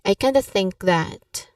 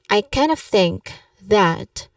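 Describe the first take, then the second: First: 'Kind of' is reduced to 'kinda'. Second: 'Kind of' is linked smoothly, keeping the 'of'. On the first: "you can say I kinda think that because it's more casual" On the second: "you link kind of smoothly, like one word"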